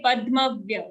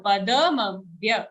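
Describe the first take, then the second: First: Padmavya with da clipped; wrong padmavya. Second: Padamavya with a full da. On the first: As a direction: drop the a after da in padmavya. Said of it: "Don't say padmavya". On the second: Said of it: "It's a full the". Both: Shown as a demonstration.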